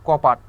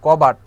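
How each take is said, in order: First: কপাট said with p in place of b, short and falling; altered consonant. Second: কবাট said with a clear b sound, loud and falling; intended form. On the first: Teacher showing students the b changed to p in কপাট. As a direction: swap the b for p and say কপাট. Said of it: "এই ব কে আমরা change করে দিলাম". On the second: Teacher giving students কবাট as the intended word, clear b. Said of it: "আমার শুদ্ধ উচ্চারণ করার কথা". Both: Shown as a demonstration.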